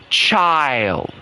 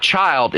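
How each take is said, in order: First: Put-on "child" drawn out long with a falling glide; Nana's proper pronunciation. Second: Said in the usual way. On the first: Mocking how proper Nana talks, "child" long and over-pronounced. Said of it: "it's not child, it's child". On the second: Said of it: "it's not child".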